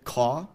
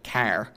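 First: The r is dropped and the vowel is unchanged. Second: The vowel is lower and back, r is kept. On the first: "drop the R without backing or lowering the vowel... That sounds more like New York" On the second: "with a lower back vowel but keeping the R... That sounds a little Canadian to me"

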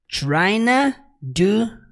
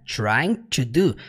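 First: 'Trying to' is squeezed into one short 'tryna'. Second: Each word of 'trying to' is said separately. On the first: "ele simplesmente contrai para tryna" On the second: "ele não fala trying to do, que é o que nós temos aqui exatamente"

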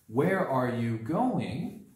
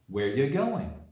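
First: Every word is said fully and separately. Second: The words run together with reduced sounds.

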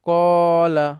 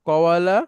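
First: The middle is one long a vowel. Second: A w sound separates the two a vowels. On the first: The speaker calls it right. "এখানে একটা মাদ সৃষ্টি করে এটাকে আমরা সহজীকরণ করে ফেললাম" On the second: The speaker calls it wrong. "এইভাবে পড়া যায় না, এটা পড়া খুবই কঠিন"

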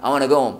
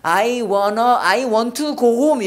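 First: It is read in a native English style. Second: It is read in a Korean-accented style. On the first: "영어는 어떻게 해? I want to go home 이렇게 나온단 말이에요" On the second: "우리는 I want to go home 이랬는데"

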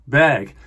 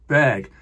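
First: The name is said the native-sounding way. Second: The same.

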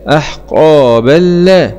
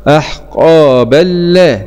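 No difference in how they are said.

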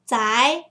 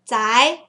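First: The pitch rises across the syllable. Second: The pitch rises across the syllable.

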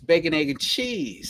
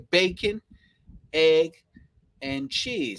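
First: The words run together like one single word. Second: Each word is said separately with small pauses. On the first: The speaker calls it right. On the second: The speaker calls it wrong. "You don't say"

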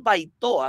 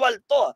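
First: An 'i' glide follows the first vowel. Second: An 'l' sound follows the first vowel. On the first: It is the name as it really is. The speaker calls it right. "es Baitoa, así mismo como suena" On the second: It is an attempt to sound more refined and hide regional origin. The speaker calls it wrong. "no es Baltoa"

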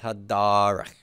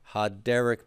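First: The stressed vowel is a lengthened a. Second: The stressed vowel is a short e. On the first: The word stands at a strong pause in the verse. "to a long kametz" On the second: The word is in its ordinary form. "from a short sigol"

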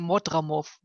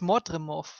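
First: The second vowel is an A sound. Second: The second vowel is an E sound. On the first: The speaker calls it wrong. "ihr sprecht immer Mordramov. Der hat aber kein A drin" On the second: The speaker calls it right. "Der heißt Mordremov, wenn man schreibt, aber mit E"

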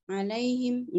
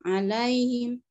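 Both takes have the same delivery.

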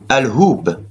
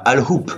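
First: The word ends with a b sound. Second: The word ends with a p sound. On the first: The speaker calls it right. "ça désigne Al-Hub" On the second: The speaker calls it wrong. "les Espagnols ont mis un P"

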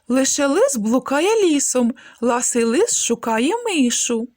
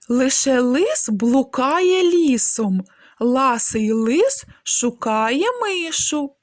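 First: The phrase is said at a faster pace. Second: The phrase is said slowly and clearly. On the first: "Давайте трошки швидше" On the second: "Спочатку вимовляємо скоромовки повільно, чітко та виразно"

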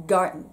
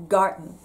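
Both takes have the same delivery.

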